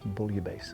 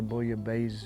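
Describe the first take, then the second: First: The word ends with a hissing S sound. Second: The word ends with a buzzing Z sound. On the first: The speaker calls it right. "I think the proper pronunciation is" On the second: The speaker calls it wrong. "you might hear some people say"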